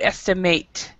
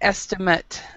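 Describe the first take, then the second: First: It is pronounced the way the verb is. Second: It is pronounced the way the noun is. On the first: It names the action of judging an amount. "if it's a verb, the pronunciation is to estimate" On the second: It names a judged amount. "if it's a subject, it's an estimate"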